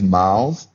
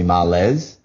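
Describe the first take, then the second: First: The name sounds like 'miles', one syllable. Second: The name sounds like 'mar-lez', two syllables. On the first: This is the family's own pronunciation. The speaker calls it right. "it is Miles" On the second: This is how others have been saying it. The speaker calls it wrong. "people have been calling me Marlez"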